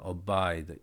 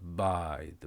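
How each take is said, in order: First: The word starts with a short vowel sound. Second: The word starts directly with the b consonant. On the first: The speaker calls it right. "이게 앞에 어가 있다라고 생각하고 발음을 하면" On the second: The speaker calls it wrong. "앞 어를 하지 말아 보세요"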